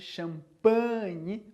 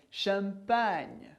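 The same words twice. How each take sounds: First: The word is said with a nasal sound. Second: The word is said without a nasal sound. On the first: The speaker calls it wrong. "não tem o som nasal de champagne" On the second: The speaker calls it right. "mas champagne"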